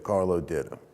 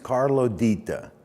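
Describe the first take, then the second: First: The name has a local New Orleans pronunciation. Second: The name has its Sicilian pronunciation. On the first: "That would be how you would say it over there" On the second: "That's the correct Sicilian pronunciation"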